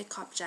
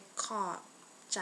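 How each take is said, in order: First: Said in the usual way. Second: Slow, with a pause between the two words. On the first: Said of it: "normally we would just say". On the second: Shown as a demonstration. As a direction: split "ขอบ" and "ใจ" for a learner. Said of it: "I said that slow".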